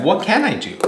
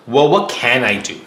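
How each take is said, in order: First: Higher-pitched, direct question; asking aloud. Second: Mildly puzzled question to himself, stressed opening; thinking to himself. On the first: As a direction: put the question to the man, pitched up. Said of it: "And he asks that". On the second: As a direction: wonder to yourself what is left to try. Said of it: "Jack thinks to himself". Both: Acted.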